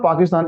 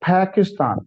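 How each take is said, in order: First: The first P has no puff of air. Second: The first P has a puff of air. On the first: The speaker calls it wrong. "So it's not पाकिस्तान" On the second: The speaker calls it right. "पी शुरू वाला फी बन जाएगा"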